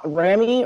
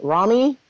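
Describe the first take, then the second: First: First syllable of "Rami" with a short a as in "ram"; "Rami" said RAM-ee, left hanging; unsure pronunciation. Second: First syllable of "Rami" with an open ah; second guess at "Rami" as RAH-mee, questioning; "Rami" said RAH-mee, rising; alternative pronunciation. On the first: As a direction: try "Rami" as RAM-ee, tentatively. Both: Real, not acted. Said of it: "or is it Rami?".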